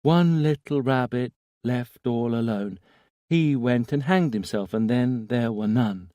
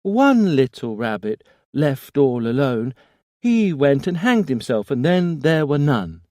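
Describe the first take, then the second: First: Put-on high, small child reciting a rhyme; sing-song nursery rhyme, childlike; little boy voice. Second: Put-on high, loud eerie childlike rhyme; a ghostly child chanting, full force; little boy voice. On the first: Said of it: "small, infantile voice". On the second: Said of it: "The voice seemed to grow stronger". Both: A narrator's reading.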